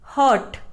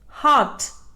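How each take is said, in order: First: An R sound is heard after the vowel. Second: No R sound is heard after the vowel. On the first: The speaker calls it wrong. "It is mispronounced as hurt" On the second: The speaker calls it right. "R is silent"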